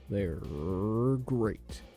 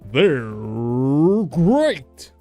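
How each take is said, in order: First: The impression is weak and half-hearted. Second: The impression is fuller and more committed.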